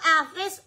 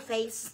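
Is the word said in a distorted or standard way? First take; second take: distorted; standard. First: The word is said in a distorted way. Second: The word is said in the standard way. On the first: The speaker calls it wrong. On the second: The speaker calls it right.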